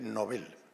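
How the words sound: It is said the Swedish way. "en sueco se dice Nobel"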